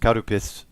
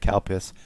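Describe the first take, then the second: First: It is said with Japanese sounds, three syllables. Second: It is said with English-style sounds, two syllables. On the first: "In Japanese is Karupis" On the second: "C A L P I S sounds like Calpis"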